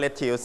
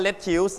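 First: "lettuce" said as "LET-us"; correct pronunciation. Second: "lettuce" misread as "let-tews"; wrong pronunciation. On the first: Teacher correcting the misreading for students, "lettuce" said properly as "LET-us". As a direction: say "lettuce" with a short unstressed "us" ending. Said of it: "ไม่อ่านว่า lettuce นะครับ lettuce". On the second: Teacher warning students off a misreading, "lettuce" wrongly said as "let-tews". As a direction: say "lettuce" as spelt, stressed T and "ews" ending. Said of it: "ไม่อ่านว่า". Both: Shown as a demonstration.

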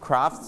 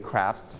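First: First "craft" with British "ah"; British pronunciation. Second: "craft" with American front "a"; American pronunciation. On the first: Teacher contrasting two ways for class, British "craft". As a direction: say "craft" with an open British vowel. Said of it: "ออกได้สองแบบเลย". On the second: Teacher contrasting two ways for class, American "craft". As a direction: say "craft" with an "air"-like American vowel. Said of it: "craft หรือ craft ได้". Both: Shown as a demonstration.

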